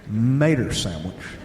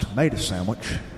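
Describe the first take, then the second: First: Tomato becomes 'mater', ending in an 'er' sound. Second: The first T sound is dropped from tomato. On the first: "the O is replaced with an E R" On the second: "The T is always silent"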